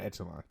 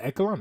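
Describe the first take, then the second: First: Echelon said "ETCH-uh-lon"; CH pronunciation. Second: Echelon said "EK-uh-lon"; hard K pronunciation. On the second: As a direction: say Echelon with a K sound. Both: Shown as a demonstration. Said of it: "is it Echelon or Echelon".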